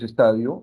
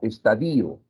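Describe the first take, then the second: First: The stress falls on the 'ta' syllable. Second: The stress falls on the 'i' syllable. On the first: The speaker calls it right. "lo correcto es estadio en términos formales" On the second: The speaker calls it wrong. "esta palabra suele pronunciarse como estadio"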